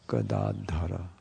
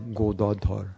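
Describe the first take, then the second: First: The name is said with a non-Bengali pronunciation. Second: The name is said with a Bengali pronunciation.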